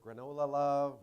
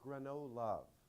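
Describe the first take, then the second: First: The name is said with four syllables. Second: The name is said with three syllables. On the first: The speaker calls it wrong. "We hear granola love" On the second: The speaker calls it right. "You pronounce it Grano-Love"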